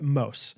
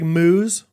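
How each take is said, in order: First: The vowel is a long 'oh' sound. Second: The vowel is a long 'oo' sound. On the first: The speaker calls it right. "you pronounce it Mose" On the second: The speaker calls it wrong. "it looks like Moose"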